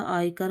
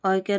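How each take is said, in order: First: Said in the usual way. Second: आयकर as aay-kar, with a glide; mispronounced आयकर. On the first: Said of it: "आयकर होता है". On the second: Shown as a demonstration. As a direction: say आयकर with 'y' before kar. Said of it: "आयकर नहीं होता". (आयकर में 'य' की ध्वनि)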